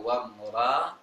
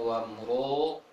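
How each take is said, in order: First: The r is light with an open vowel. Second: The vowel is strongly rounded with pouted lips. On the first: "Jangan membaca wam ra" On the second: "terlalu manyong"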